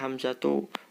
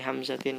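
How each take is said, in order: First: The word ends on a plain u vowel. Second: The word ends in -in with an n sound. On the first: The speaker calls it right. "seharusnya Hamzatu" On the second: The speaker calls it wrong. "li Hamzatin khata"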